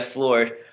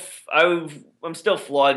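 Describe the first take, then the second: First: The r sound is clearly pronounced. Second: The r sound is dropped, Boston style. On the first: The speaker calls it right. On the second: The speaker calls it wrong.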